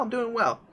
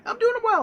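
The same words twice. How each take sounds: First: Said in the usual way. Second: Squeaky high-pitched answer; high squeaky reply. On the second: Retold or imitated. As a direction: jump way up high on it. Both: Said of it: "I'm like".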